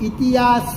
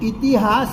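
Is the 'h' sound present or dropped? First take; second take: dropped; present. First: The 'h' sound is dropped. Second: The 'h' sound is pronounced. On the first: This is the dialect form. "હ શ્રુતિનો લોપ" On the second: This is the standard form the dialect avoids. "ઇતિહાસ નહીં"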